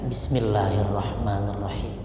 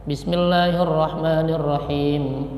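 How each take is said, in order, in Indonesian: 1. Frasa ini dibaca pelan, hampir seperti gumaman. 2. Frasa ini dibaca dengan suara keras. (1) "bismillahnya dipelankan, disirkan" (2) "bismillahnya dikeraskan"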